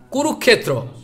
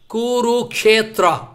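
First: Some sounds of the word are dropped. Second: Every part of the word is fully pronounced. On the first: The speaker calls it wrong. "If I speak this way, I am speaking wrong" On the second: The speaker calls it right. "you will have to speak all"

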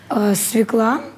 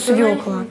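First: The stress is on the second syllable. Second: The stress is on the first syllable. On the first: "ударение на «а»" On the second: "если «ё», то «свёкла»"

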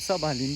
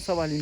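First: The word is said slowly with every syllable clear. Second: The word is said fast with sounds run together. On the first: The speaker calls it right. "netleştireyim" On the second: The speaker calls it wrong. "hızlı konuşunca öyle oluyor"

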